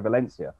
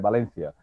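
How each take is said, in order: First: The name is said with English pronunciation. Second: The name is said with Spanish pronunciation. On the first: The name was learned before living in Spain. "I'll still say Valencia" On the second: The name was learned while living in Spain. "I won't say Valencia"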